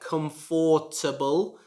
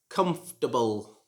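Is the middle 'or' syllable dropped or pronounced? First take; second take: pronounced; dropped. First: The middle 'or' syllable is fully pronounced. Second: The middle 'or' syllable is dropped. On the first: The speaker calls it wrong. "You should not pronounce it like comfortable, like many of my students pronounce it. They try to pronounce the or syllable in the middle" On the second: The speaker calls it right. "you should pronounce this word comfortable"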